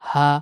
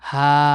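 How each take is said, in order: First: The vowel is kept short and quick. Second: The vowel is drawn out long. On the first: The speaker calls it right. "Short সাউন্ডে সঠিকভাবে উচ্চারণ করতে পারি কোনো লম্বা টান ছাড়াই" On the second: The speaker calls it wrong. "এরকম লম্বা টান না হয়"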